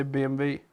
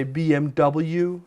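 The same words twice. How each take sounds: First: B M W the German way, bee em vee; German BMW. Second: B M W the American way, bee em double-u; American BMW. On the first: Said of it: "I would say B M W". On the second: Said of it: "in America they would say B M W". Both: Shown as a demonstration.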